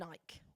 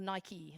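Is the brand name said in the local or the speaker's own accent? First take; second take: own; local. First: The name is said in the speaker's own accent. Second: The name is said in the local accent.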